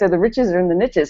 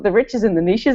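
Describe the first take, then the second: First: Niches is said the American way, rhyming. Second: Niches is said the New Zealand way, not rhyming.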